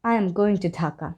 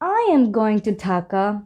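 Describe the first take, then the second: First: It is said in a sad tone. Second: It is said in a confused tone. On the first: The speaker is not happy to go. "একটু sad টোনের মনে হবে" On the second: The speaker is unsure about going. "শুনে মনে হবে একটু confusing"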